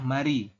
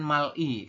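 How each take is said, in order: First: The consonant links smoothly into the next vowel. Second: The consonant is held apart from the next vowel. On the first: The speaker calls it right. "dibacanya adalah mari" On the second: The speaker calls it wrong. "bukan mal-i"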